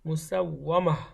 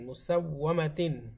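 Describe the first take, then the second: First: The word ends on 'ma' without 'tin'. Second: The word ends with the full 'tin' ending. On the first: The reader stops on this word. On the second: The reader continues without stopping.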